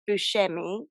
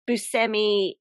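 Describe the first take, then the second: First: The name has a Sicilian Italian pronunciation. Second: The name has an Americanized pronunciation. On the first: This is how his family in Sicily says it. "his real name is Buscemi, or how they say it in his relatives say it in Sicily" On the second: This follows the spelling as Americans read it. "he's kind of sort of Buscemi American"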